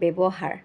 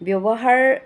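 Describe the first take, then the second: First: The middle w sound is changed when spoken. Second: The middle w sound is kept as written. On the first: The speaker calls it wrong. "কিন্তু আমি কওঁতে আমি কওঁ ব্যৱহাৰ" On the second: The speaker calls it right. "আমি ৱ ঠিকে লিখোঁ"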